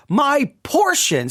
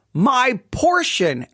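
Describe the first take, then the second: First: "Portion" lifted higher and drawn out slowly; with emphasis. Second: Said in the usual way. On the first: Shown as a demonstration. Rereading the devotion title to listeners, stressing "Portion". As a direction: lean on "Portion", slow and raised. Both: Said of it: "saying it with a little bit of emphasis".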